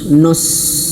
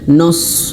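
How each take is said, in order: First: The syllable is said thick and heavy. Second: The syllable is said thick and heavy.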